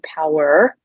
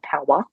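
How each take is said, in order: First: It has an American accent with the R pronounced. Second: It has a non-American accent with the R dropped. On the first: The speaker calls it right. "I like how you said that with an American accent" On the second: The speaker calls it wrong. "not power"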